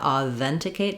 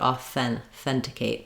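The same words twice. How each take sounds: First: The th sound is voiced, with throat vibration. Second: The th sound is voiceless, just air. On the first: The speaker calls it wrong. "so not authenticate" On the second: The speaker calls it right. "this is a voiceless th sound"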